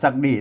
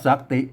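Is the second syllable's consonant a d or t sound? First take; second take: d sound; t sound. First: The second syllable begins with a d sound. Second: The second syllable begins with a t sound. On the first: This is the modern everyday reading. "ภาษาไทยเพิ่นปัจจุบันนี้ก็กลายเป็น" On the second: This is the older scriptural reading. "อ่านว่าสักติ"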